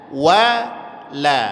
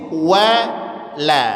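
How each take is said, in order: The two takes are said the same way.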